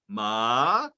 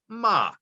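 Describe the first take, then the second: First: The pitch starts low and goes high. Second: The pitch starts high and goes low. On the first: It means hemp. "fourth tone, and it, it starts low and goes high" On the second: It means horse. "the second tone, it starts uh, high and goes low"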